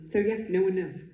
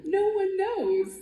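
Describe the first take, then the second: First: Said in the usual way. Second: High, slow, drawn-out "No one knows"; playful hammed-up mystery; mock mysterious. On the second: Dramatic mock-mysterious line, then repeated plainly.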